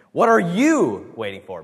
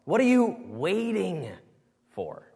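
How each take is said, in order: First: YOU pushed louder and higher; stress on YOU. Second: You lifted higher and slowed; lingering emphasis on you; stress on YOU, drawn out. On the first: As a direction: punch you in "What are you waiting for?". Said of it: "Make it all about yourself". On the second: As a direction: stretch you in "What are you waiting for?", slow. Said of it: "put the emphasis on different parts". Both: Shown as a demonstration.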